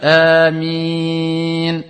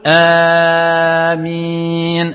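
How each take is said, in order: First: The first vowel is held for two counts. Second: The first vowel is held for too long. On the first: The speaker calls it right. "c'est un mad de deux temps" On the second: The speaker calls it wrong. "هذا خطأ"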